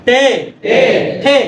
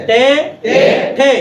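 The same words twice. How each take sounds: Both takes have the same delivery.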